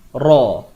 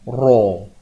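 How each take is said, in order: First: The vowel is said without rounding the lips. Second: The vowel is said with strongly rounded lips. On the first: The speaker calls it right. "Tak perlu muncul bibir. Biasa saja" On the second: The speaker calls it wrong. "huruf tebal ni nak muncul ro"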